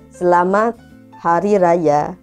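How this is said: The final vowel is a full open 'a'. "dia nih orang Sabah jadi"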